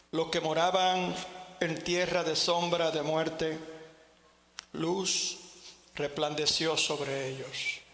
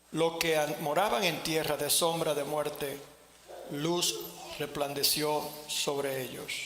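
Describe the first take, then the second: No difference in how they are said.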